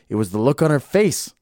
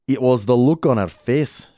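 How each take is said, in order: First: It is read in the speaker's ordinary accent. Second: It is read in a put-on Scottish accent.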